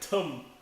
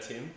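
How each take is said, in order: First: The vowel is centralized, like a South African accent. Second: The vowel is a plain short i sound. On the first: "Tum instead" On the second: "of Tim"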